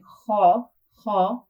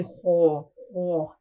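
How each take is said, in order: First: "ha" with an open a and lips relaxed; correct fatha. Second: "ho" with lips rounded toward an o; wrong way, like a dhamma. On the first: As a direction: keep the "ha" open and flat. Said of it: "instead of saying". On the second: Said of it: "sounds closer to the dhamma, which is a mistake". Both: Shown as a demonstration.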